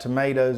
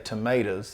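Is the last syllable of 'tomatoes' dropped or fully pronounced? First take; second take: fully pronounced; dropped. First: The last syllable is fully pronounced. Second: The last syllable is dropped.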